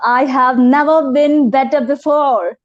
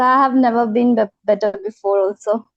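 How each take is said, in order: First: It is said with more energy. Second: It is said with low, tired energy.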